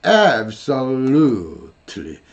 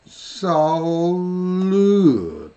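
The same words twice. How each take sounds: First: "absolutely" said slowly and carefully. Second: "absolutely" stretched very slowly; slow syllable-by-syllable. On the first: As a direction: drag out "absolutely" on purpose. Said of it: "이렇게 느리게 발음할 수가 없어요". (느리게 발음) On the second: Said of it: "이렇게 한다고 그랬잖아요". (아주 느리게 또박또박) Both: Shown as a demonstration.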